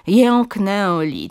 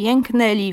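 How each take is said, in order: First: JĘKNĘLI drawn out, both ę fully nasal; overliteral nasal ę. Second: JĘKNĘLI with oral e before l, as jenkneli; careful oral vowel. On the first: Linguist demonstrates the error, slow overliteral nasals in "jęknęli". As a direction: stretch the nasal vowels in "jęknęli". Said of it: "nadmiernie literowa wymowa". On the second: Linguist shows the model form, oral e in "jęknęli". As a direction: drop the nasality before l in "jęknęli". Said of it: "jako samogłoski ustne". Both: Shown as a demonstration.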